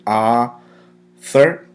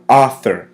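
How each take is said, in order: First: "author" drawn out slowly as AH-thor; silent u. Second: "author" said clearly and a little louder, AH-thor; model pronunciation. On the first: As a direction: say "author" slowly with the first vowel open as in "ah". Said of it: "Notice how the U, it's silent". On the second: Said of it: "Once more". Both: Shown as a demonstration.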